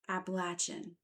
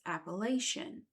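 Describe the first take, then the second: First: It is said the southern regional way. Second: It is said the northern regional way. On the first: This is how locals in the southern mountains say it. The speaker calls it right. "as I've always heard from birth" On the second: This is how people farther north say it. The speaker calls it wrong. "Those who live in Pennsylvania and stretching to the north refer to them as"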